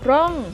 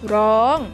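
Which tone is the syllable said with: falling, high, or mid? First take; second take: falling; high. First: The syllable is said with a falling tone. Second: The syllable is said with a high tone. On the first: "ร่องเป็นเสียงโท" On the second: "ร้องเป็นเสียงตรี"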